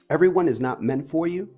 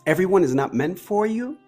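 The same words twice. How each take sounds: First: The voice is low, soft and sultry. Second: The voice is plain and ordinary. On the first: "as I close it up here with the sexy voice" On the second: "One without the sexy voice?"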